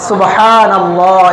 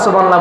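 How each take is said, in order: First: The word is said slowly with every sound clear. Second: The word is rushed and its sounds are slurred. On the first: The recitation is correct. The speaker calls it right. "এরকম করে পড়ে না" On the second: The recitation is distorted and may earn sin. The speaker calls it wrong. "এমন ভাবে পড়বে যেটা বিকৃত হয়"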